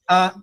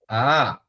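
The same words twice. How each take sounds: First: The vowel is said on a high tone. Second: The vowel is said on a rising tone.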